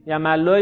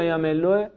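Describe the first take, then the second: First: یملوه said jæmælːoe, with a on the middle syllable; یملوه with an open a after the m; fatha reading. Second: یملوه said jæmelːoe, with e on the middle syllable; یملوه with a short e after the m; kasra reading. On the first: Teacher sounds out the first reading for the class, open a. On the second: Teacher sounds out the second reading for the class, short e. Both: Shown as a demonstration. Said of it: "دیدین رفقا؟ لغتو".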